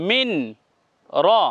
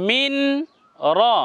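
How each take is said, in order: First: The n is sounded separately before the r. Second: The same.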